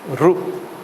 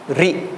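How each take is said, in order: First: The letter is said with an 'oo' vowel. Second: The letter is said with an 'ee' vowel. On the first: This is how people from some regions say it. "if you come from Gujarat and some states in India, they say Ru" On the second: This is how many people say it. "M- many people pronounce this as Ri"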